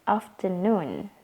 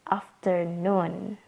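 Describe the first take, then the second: The two takes are said the same way.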